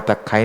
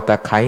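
Both takes have the same delivery.

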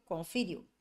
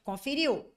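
First: "Conferiu" dropped low as the answer; self-answered confirmation. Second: "Conferiu" pitched up as a check; checking question. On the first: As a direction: settle "Conferiu" lower, as a confirmation. Teacher answers her own check. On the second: Teacher asks, then confirms herself. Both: Shown as a demonstration.

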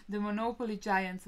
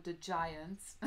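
First: "the Monopoly giants" said louder and punched, with "giants" landing hard; emphatic restatement. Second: Said in the usual way. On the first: Real, not acted. Telling the viewers about her game rival, emphatic and louder. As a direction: build it up like a grand boast, voice rising in volume.

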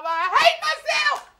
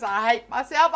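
First: Desperate high cry on hate; much higher wail. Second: Said in the usual way. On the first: Shown as a demonstration. Mock-despairing wail, much higher on hate.

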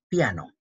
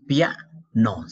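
First: Said in the usual way. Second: "Piano" broken as pia, pause, no; split into syllables. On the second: Shown as a demonstration. Teacher showing where the vowels join, "Piano" split by syllables. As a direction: say "Piano" in two separate beats, louder on pia.

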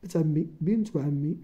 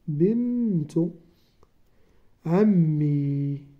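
First: Said in the usual way. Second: بنت عمي said slowly, with عمي stretched very long; teacher dictating بنت عمي slowly to young pupils; slow dictation. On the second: Shown as a demonstration. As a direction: draw out عمي so the pupils can write it. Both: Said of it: "تكون بنت".

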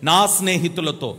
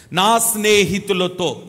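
First: Slower నా స్నేహితులతో, weight on నా; stress on నా again. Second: Slow, weighted నా స్నేహితులతో with నా leaned on; stress on నా. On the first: Preacher repeating for congregation, stressing నా. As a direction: dwell on నా in నా స్నేహితులతో. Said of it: "ఎవరితో?". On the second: Preacher to congregation, pressing నా in నా స్నేహితులతో. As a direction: lean hard on నా, drawing out నా స్నేహితులతో. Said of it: "కొంచెం గట్టిగా చెప్పండి". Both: Shown as a demonstration.

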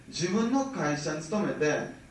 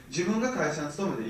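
First: 自分の会社に勤めて spelled out slowly, word by word; slow it right down so they catch every word; emphatic slow repeat for the audience; slow and deliberate. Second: Said in the usual way. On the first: Shown as a demonstration. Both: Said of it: "よく聞いてね".

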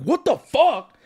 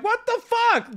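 First: Mock-serious angry outburst; serious outrage. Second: Very high-pitched mock outrage; joking protest. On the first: Shown as a demonstration. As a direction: demonstrate a genuinely angry version, less squeaky. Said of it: "there wasn't a point where I was like". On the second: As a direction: squeal it in playful disbelief. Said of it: "I'm smiling and joking through it".

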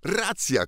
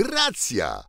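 First: High exclaimed agreement on "Racja"; "Racja" called out high, falling; excited call. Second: Said in the usual way. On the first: Acted. Tom agreeing with his king, calling out excitedly. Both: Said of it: "zawołał Tomek Kęty".

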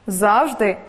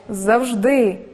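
First: Завжди stressed on ЗАВ; завжди, with the weight on the first syllable ЗАВ. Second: Завжди stressed on ДИ, with a falling end; завжди, with the weight on the last syllable ДИ. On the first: Teacher showing learners double stress, ЗАВ stressed. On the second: Teacher giving the second correct variant, ДИ stressed. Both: Shown as a demonstration. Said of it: "Деякі слова мають подвійний наголос".

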